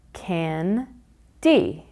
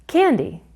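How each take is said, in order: First: "Can-D" in two separate beats; syllable by syllable. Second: Said in the usual way. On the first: Shown as a demonstration. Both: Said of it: "syllable word block".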